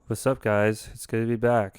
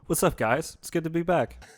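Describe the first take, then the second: First: It is said in an impression of Brad. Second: It is said in his natural voice.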